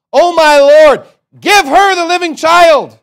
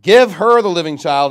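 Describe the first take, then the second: First: High, very loud drawn-out cry; wailed, full-voiced begging; desperate plea. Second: Firm, louder scripture reading; measured royal decree, loudly begun; king's ruling. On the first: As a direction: cry out to the king for mercy. Acts out mother's plea to king. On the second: Acted. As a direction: pronounce the verdict with raised volume. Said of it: "Then the king answered and said".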